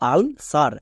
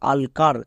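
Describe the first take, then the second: First: The second syllable starts with an s sound. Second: The second syllable starts with a k sound. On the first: The speaker calls it right. "কিন্তু এর উচ্চারণ দাঁড়াবে আলসার" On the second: The speaker calls it wrong. "বা আলকার"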